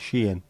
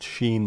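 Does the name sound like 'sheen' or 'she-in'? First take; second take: she-in; sheen. First: The name is said like 'she-in'. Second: The name is said like the word 'sheen'. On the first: The speaker calls it right. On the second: The speaker calls it wrong.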